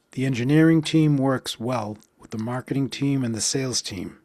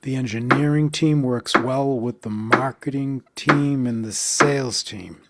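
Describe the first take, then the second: First: Said in the usual way. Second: Beats on engineering, team, marketing, sales, falling at team; even rhythmic stress pulse; counted stress beats. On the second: Shown as a demonstration. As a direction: tap out each stressed word. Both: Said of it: "Let's count that".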